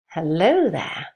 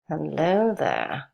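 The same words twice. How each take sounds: First: It is said in a soft, gentle voice. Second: It is said in an uncertain, sinister voice. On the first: The speaker is romantic and affectionate. "It would be pronounced in a soft tone of voice" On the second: The speaker may not be friendly. "You wouldn't be quite sure whether this was a friendly character speaking to you"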